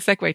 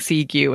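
First: The word is said with a 'way' ending. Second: The word is said with a 'gew' ending. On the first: The speaker calls it right. "I learned how to pronounce it 10 years ago" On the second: The speaker calls it wrong. "saying Seagew and someone looking at me and going, no"

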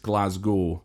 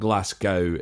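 First: The middle consonant sounds like a z. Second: The middle consonant sounds like an s. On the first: The speaker calls it right. "it's like there's a Z in there" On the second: The speaker calls it wrong. "It's not Glasgow"

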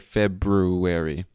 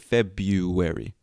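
First: An R sound is pronounced right after the B. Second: No R sound is pronounced after the B. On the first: The speaker calls it wrong. "we don't say February. It's even difficult to say for me" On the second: The speaker calls it right. "We say February"

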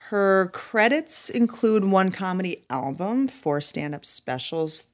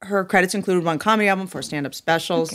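First: It is read with plain, lower energy. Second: It is read with more energy and punch.

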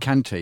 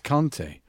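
First: The name is said with an English-style pronunciation. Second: The name is said with a native-like pronunciation. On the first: The speaker calls it wrong. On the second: The speaker calls it right.

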